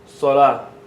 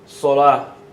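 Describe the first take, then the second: First: The final letter is pronounced as h. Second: The same.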